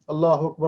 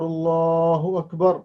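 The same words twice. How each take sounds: First: It is said quickly, without pauses. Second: It is said slowly, with pauses.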